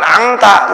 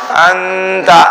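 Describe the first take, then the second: First: The nasal is an ng sound. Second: The nasal is a held n sound. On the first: The speaker calls it wrong. "bukan angta" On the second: The speaker calls it right. "Dia suaranya suara n ditahan"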